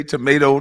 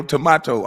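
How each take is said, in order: First: Said in the usual way. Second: "tomato" said tuh-MAH-toh; "tomato" with its middle like "spa"; alternative pronunciation. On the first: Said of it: "just like people say tomato". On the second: Shown as a demonstration. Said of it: "just like people say tomato, tomato".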